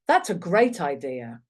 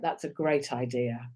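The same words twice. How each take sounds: First: It is said in a sincere, warm tone. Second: It is said in a sarcastic, dismissive tone. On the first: The speaker really thinks it is a good idea. The speaker calls it right. "The second one, then it was" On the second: The speaker does not think it is a good idea. The speaker calls it wrong. "That first one, that was definitely not a great idea in your view"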